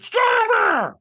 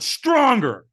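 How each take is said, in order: First: Full-voiced scream, very high and loud; screamed command. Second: Raised, high, forceful command; loud coaching demand. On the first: Trainer screaming at a hesitant firewalker, screamed command. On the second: Retold or imitated. Trainer pressing the firewalker for more, loud coaching demand. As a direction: push him for more power. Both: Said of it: "he screamed at me".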